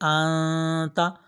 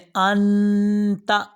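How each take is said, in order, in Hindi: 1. n नाक की आवाज़ में छुपा हुआ है। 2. n साफ़ और पूरी तरह बोला जाता है। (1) "इस तरीके से पढ़ते हैं छुपा कर" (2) "मैंने अंता नहीं कहा"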